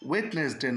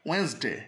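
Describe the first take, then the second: First: The first d sound is clearly pronounced. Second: The first d sound is left silent. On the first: The speaker calls it wrong. "ডিটা উচ্চারণ হয় না, এই জন্য হয় ওয়েডনেসডে না হয়ে" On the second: The speaker calls it right. "সঠিক উচ্চারণটা হয় ওয়েডনেসডে"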